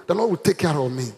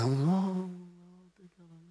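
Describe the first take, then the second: First: Firm, full-voiced statement; bold declaration. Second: Very soft moan fading to nothing; timid, imitated. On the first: Shown as a demonstration. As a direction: say it boldly and steadily. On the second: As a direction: mimic a feeble response, barely audible. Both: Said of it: "Say that boldly now".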